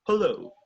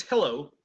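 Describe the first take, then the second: First: Hello with a reduced British first vowel. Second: Hello with an open American first vowel. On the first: Teacher contrasting American and British hello, British. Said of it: "For a British". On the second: Teacher contrasting American and British hello, American. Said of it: "For an American". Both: Shown as a demonstration.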